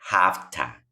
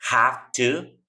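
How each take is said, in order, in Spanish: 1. Las palabras se unen y terminan en una vocal débil. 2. Ambas palabras se dicen completas y por separado.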